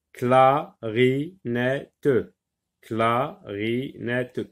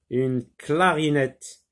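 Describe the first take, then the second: First: "clarinette" split slowly into cla-ri-net-te; syllable by syllable. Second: Said in the usual way. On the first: Shown as a demonstration. Teacher counts syllables for pupils, "clarinette" broken slowly into four beats. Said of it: "quatre syllabes".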